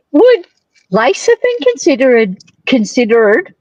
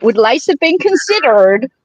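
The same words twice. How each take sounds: First: Slipping into an American accent; vowels drifting American. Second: Said in the usual way. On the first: Real, not acted. Asking the guest with an American accent. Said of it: "that's my American accent coming out". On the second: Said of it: "listen to that".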